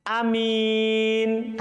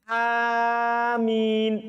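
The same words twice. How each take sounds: First: The first vowel is said short. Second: The first vowel is drawn out long. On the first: "hamzanya pendek dan mimnya tidak ditasdid" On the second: "A panjang hamzanya"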